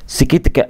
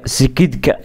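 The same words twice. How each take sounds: First: سكيتكا with a clear t; correct t. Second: سكيدكا with a voiced d; wrong d. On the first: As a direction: say سكيتكا as skitka. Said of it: "سكيتكا وليس سكيدكا". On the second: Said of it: "وليس سكيدكا". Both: Shown as a demonstration.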